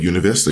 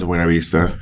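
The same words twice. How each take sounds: First: The name is pronounced the English way. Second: The name is pronounced the Spanish way. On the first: This is how the locals commonly say it. "I just my whole life called it Buena Vista because everyone called it" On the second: This is the proper pronunciation of the name. "I know that it's Buena Vista"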